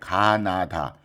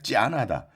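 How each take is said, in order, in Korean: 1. 한국식 발음으로 ga-na-da라고 읽어요. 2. 중국식 발음으로 jia-na-da라고 읽어요. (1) "중국말로는 이제 가나다" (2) "중국 발음으로는 이제 찌아나다"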